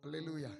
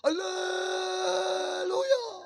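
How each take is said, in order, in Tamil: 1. வார்த்தை சின்னதாக, வேகமாக சொல்லப்படுகிறது. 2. வார்த்தை நீளமாக இழுத்துச் சொல்லப்படுகிறது. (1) "மதராசி மதராசின்னு ஒரு அல்லேலூயா இருக்கு" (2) "அவன் இழுப்பான்"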